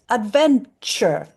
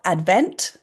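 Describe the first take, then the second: First: The t and y merge into ch. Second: The t and y sounds stay apart. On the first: "when they come together... it sounds like this" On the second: "So we've got Advent, year"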